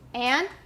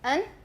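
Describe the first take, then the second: First: The word is said in full with its vowel. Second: The word is reduced to a short vowel plus n. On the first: "we can use these different versions" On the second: "we can reduce it"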